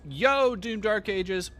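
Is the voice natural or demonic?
natural. It is said in his natural voice.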